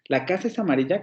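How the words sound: It is said with a doubtful, hesitant intonation. The speaker is unsure whether it is so. "lo puedo plantear como una duda"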